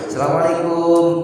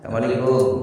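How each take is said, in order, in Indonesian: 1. Salam ini diucapkan dengan nada tinggi dan keras. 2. Salam ini diucapkan dengan nada sedang. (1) "pertama nadanya tinggi" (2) "Yang kedua rendah"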